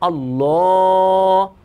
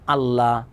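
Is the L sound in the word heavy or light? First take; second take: heavy; light. First: The L is heavy and thick. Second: The L is light and thin. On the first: The speaker calls it right. "মোটা করে কীরকম?" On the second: The speaker calls it wrong. "আমরা যে ভুলটি করে থাকি, আমরা বলি"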